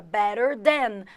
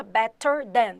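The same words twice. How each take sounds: First: Better than, tapped T; American pronunciation. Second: Better with a crisp T, not a flap; better than with a sharp T; British pronunciation. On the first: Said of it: "Na pronúncia britânica". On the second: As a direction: say "better" with a clear British T sound. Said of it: "Na pronúncia britânica ... pronuncia os T's". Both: Shown as a demonstration.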